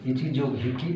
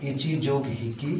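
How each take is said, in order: Both takes have the same delivery.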